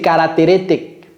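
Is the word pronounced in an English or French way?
French. The word is pronounced the French way. It is how a learner says it at first. The speaker calls it wrong. "Votre audio, c'est caractéristique. Est-ce que c'est la même chose? Non"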